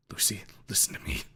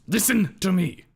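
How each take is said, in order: First: Whispered, pleading with Lucy; hushed plea. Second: Sharp shout, much higher and louder; raised voice. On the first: Ripley whispering to Lucy to calm her. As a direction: breathe it to her gently. Calming Lucy before raising voice. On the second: Ripley shouting at Lucy to make her listen. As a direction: bark it to cut through. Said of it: "He raises his voice". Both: A narrator's reading.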